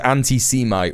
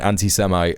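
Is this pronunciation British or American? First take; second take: British; American. First: It is said with a British pronunciation. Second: It is said with an American pronunciation. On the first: "she says anti-Semite ... I think that might just be a British thing" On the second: "rather than anti-Semite"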